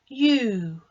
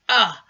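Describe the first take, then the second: First: The vowel is said with its long sound. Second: The vowel is said with its short sound. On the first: "long sound" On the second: "short sound"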